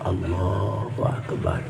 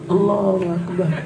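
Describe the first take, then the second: First: It is said softly and gently. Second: It is said very loudly and forcefully. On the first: It is a call into a newborn baby's ear. "Kalau di telinga bayi pelan-pelan" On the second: It is a call made when there is a fire. "Kalau ada kebakaran kencengnya segitu"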